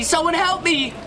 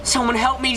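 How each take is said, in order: First: Even higher, desperate cry for help; panicked scream. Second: High, urgent call for help; frightened plea. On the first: Trapped behind the door, screaming to anyone outside in panic. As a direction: scream it, nearly breaking. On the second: Trapped behind the door, begging someone outside for help. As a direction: beg anyone outside to hear. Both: Acted.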